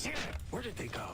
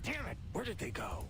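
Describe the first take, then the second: First: Frantic high angry shout. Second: High, frustrated outburst; angry. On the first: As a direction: snap it out in a panic. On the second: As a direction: curse at the missing files. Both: Acted. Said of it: "he sounded so mad".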